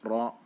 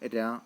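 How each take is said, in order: First: The r is heavy, thick and full-mouthed. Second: The r is light, thin and narrow. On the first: "റാഇൻ്റെ തഫ്ഖീം എന്ന് പറയുമ്പോൾ റാ റൂ എന്നുള്ള ആ ഒരു വലിയ ആ ഒരു ശബ്ദം" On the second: "തർക്കീഖ് എന്നാകുമ്പോൾ രി രാ എന്നുള്ള ആ ഒരു മൊഴിയാണ്"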